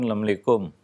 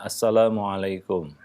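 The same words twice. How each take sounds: First: The greeting is shortened, with sounds dropped. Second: The greeting is said fully, every sound clear. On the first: The speaker calls it wrong. "menyingkat-nyingkat, dia hanya mengucapkan" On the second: The speaker calls it right. "ucapkan ucapan yang sempurna"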